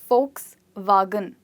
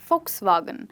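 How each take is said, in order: First: The word is said slowly, part by part. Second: The word is said quickly, run together. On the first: "this is one way to remember it" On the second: "if you want to say it quickly"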